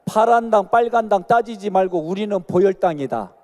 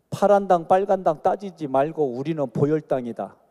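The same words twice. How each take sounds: First: Louder repeat. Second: Sung, lead the line, slogan-style; sung, call to repeat. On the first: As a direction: say it again louder, urging them on. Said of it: "아, 따라해요". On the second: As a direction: chant it for the congregation to repeat. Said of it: "한번 따라합시다". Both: Shown as a demonstration.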